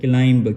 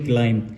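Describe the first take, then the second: First: The final b sound is pronounced. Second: The final b sound is silent. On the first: The speaker calls it wrong. "इसको तकरीबन उच्चारते हैं क्लाइंब ... ऐसे नहीं होगा" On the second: The speaker calls it right. "इसको हम पढ़ेंगे क्लाइम"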